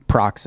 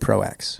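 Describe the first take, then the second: First: The name is said as one syllable, Prox. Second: The name is said as two parts, Pro-X. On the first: This is how the European company says it. The speaker calls it right. "Prox is" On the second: This is the common American way to say it. The speaker calls it wrong. "Here in America, we say Pro X"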